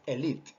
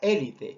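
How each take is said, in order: First: The stress is on the second syllable. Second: The stress is on the first syllable. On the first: The speaker calls it right. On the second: The speaker calls it wrong.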